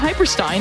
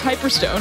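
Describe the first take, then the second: First: The name ends with the sound 'stein'. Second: The name ends with the sound 'stone'. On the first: The speaker calls it wrong. "It wasn't Hyperstein" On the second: The speaker calls it right. "it was Hyperstone, I swear"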